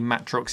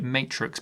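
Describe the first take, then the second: First: The last syllable sounds like 'ocks'. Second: The last syllable sounds like 'icks'. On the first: The speaker calls it right. "apparently Matrox is the proper way to say it" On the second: The speaker calls it wrong. "I used to call it Matrix"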